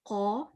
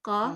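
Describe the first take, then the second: First: The qaf sounds thick and deep in the mouth. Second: The qaf sounds thin and flat in the mouth. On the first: The speaker calls it right. "ज़बान को क्या करना है पीछे से उठाना है और बीच में से ज़रा दबा दें" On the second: The speaker calls it wrong. "मैं गलत पढ़ रही हूँ, क्योंकि मेरी ज़बान सीधी जा रही है"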